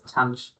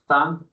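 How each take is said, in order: First: It is said like 'tanch', ending in ch. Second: It is said like 'than', with a th sound. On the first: "some people pronounce it as tanch" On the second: "some people pronounce it as than"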